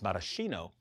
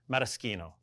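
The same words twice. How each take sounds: First: The middle sound is a soft sh. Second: The middle sound is a hard k. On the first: The speaker calls it wrong. "Often mispronounced as" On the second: The speaker calls it right. "it's a hard sound in the Italian"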